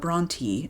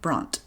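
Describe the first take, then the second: First: The name is said with two syllables. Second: The name is said with one syllable. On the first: The speaker calls it right. "with two syllables" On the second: The speaker calls it wrong. "didn't pronounce it Bront"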